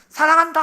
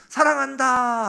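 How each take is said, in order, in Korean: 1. 매우 크게, 소리를 지르듯이 말합니다. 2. 꽤 크지만, 전보다는 작게 말합니다. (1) "가장 큰 소리로" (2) "아까보다는 작지만 그래도 큰 소리로"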